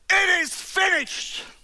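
It sounds triumphant and celebratory.

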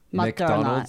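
It is said with American English pronunciation. The speaker calls it right. "It's McDonald's"

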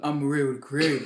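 It is said in a loud, deep voice.

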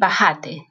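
The stress is on the second syllable.

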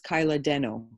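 The name is said with an English accent.

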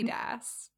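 It is said with a British pronunciation. "I love how you say both of those brands, because that is not how an American would pronounce either of them"

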